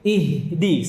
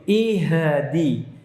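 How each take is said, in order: First: The h sound flows smoothly into the next letter. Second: The h sound has a bouncing echo. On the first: The speaker calls it right. "tapi ihdi" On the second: The speaker calls it wrong. "Ihdi itu pantulan pada hak sukun. Salah"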